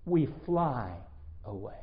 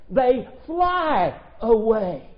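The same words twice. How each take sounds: First: Hushed fading "away" after a beat; dramatic pause. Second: "They fly away" drawn out slowly and loud; triumphant slow "They fly away"; slow proclaimed phrase. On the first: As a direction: hang on "We fly" then drop "away" to near nothing. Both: Shown as a demonstration. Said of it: "back to that expression".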